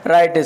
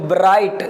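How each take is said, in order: First: It starts directly with the r sound. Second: It starts with a w-like sound. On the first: The speaker calls it right. "इसको राइट बोला जाएगा" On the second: The speaker calls it wrong. "गलत है"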